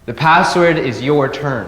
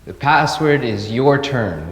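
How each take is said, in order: First: It is said in an upset voice. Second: It is said in a sad voice.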